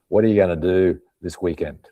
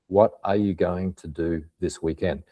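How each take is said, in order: First: The words are reduced and run together. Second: Every word is said fully and carefully.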